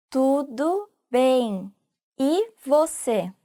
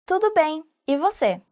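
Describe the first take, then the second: First: Tudo bem drawn out very slowly; slow repeat. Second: Said in the usual way. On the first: Shown as a demonstration. Teacher modelling the reply slowly for students. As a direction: stretch out Tudo bem, e você for learners. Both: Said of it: "you can add".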